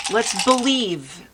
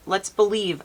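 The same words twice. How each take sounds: First: Slow, drawn-out let's believe; higher, slower and louder let's believe; emphatic. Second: Said in the usual way. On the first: Real, not acted. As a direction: lean into believe, slow and firm. Repeats the phrase for emphasis.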